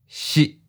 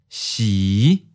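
First: The pitch is mid and cut short. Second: The pitch starts low and rises. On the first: "mid stop. Fourth tone" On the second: "low rising. Fifth tone"

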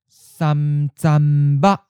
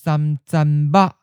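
First: It is said slowly and carefully. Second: It is said at a natural, normal speed. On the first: "and then slowly" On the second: "First natural speed"

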